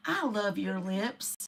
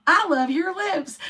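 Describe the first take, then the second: First: Soft and slow, almost murmured; mock repeating. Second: Higher, slow, teasing repeat; mock repeating. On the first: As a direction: drop the voice low and drag it out. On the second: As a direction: push it up high like a broken record. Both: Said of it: "he's continually repeating it".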